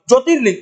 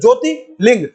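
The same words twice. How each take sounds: First: The two parts are run together very fast. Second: The two parts are said slowly and separately. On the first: "आप इन दोनों को बहुत fast बोलो" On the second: "आप अलग अलग बोल रहे हो"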